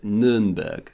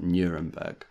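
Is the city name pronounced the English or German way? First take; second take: German; English. First: The name is pronounced the German way. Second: The name is pronounced the English way. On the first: The speaker calls it right. "I should have said Nuremberg" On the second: The speaker calls it wrong. "not Nuremberg"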